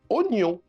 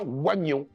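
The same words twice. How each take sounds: First: The first vowel is a plain o sound. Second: The first vowel is a wa sound. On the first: The speaker calls it right. "se prononce oignon" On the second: The speaker calls it wrong. "et pas oignon"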